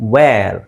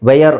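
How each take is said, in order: First: It is one syllable, like vair. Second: It is two syllables, like vay-yer. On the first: The speaker calls it right. "W ಹಾಕಿರೋದಕ್ಕೆ ನಾವು ಅದನ್ನು ವೇರ್ ಅಂತ ಹೇಳ್ತೀವಿ" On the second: The speaker calls it wrong. "ವೇಯರ್ ಅಲ್ಲ"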